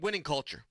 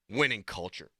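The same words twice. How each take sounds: First: It is said in his normal voice. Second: It is said in a tough-guy voice.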